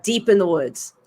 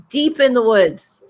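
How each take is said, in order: First: Said in the usual way. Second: Ominous slow repeat; slower, spooky emphasis. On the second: A narrator's reading. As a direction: lean into the spooky woods. Repeated for dramatic effect.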